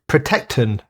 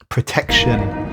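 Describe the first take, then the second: First: The last syllable is said like 'ton'. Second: The last syllable is said like 'shun'. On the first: The speaker calls it wrong. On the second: The speaker calls it right.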